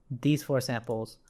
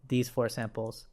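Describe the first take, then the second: No difference in how they are said.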